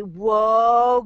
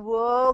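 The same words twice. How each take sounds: First: Loud, drawn-out happy whoa; delighted whoa. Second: Said in the usual way. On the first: Shown as a demonstration. Coach cheering a child's small morning win, loud delighted whoa. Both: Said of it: "you start saying, Whoa".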